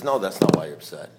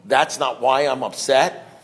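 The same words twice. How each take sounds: First: Much lower, quiet sponsor reply; imitating an unruffled sponsor; sponsor's verdict. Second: Slow, questioning echo; slow retold double-check. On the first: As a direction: contradict flatly and low. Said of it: "He says". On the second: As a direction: repeat it back slowly, as a question. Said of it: "And so I said to him".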